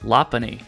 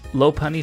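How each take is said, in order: First: The first syllable sounds like 'lop'. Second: The first syllable does not sound like 'lop'. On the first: The speaker calls it right. "it's actually based on a Lop rabbit" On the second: The speaker calls it wrong. "sounds better to a lot of people"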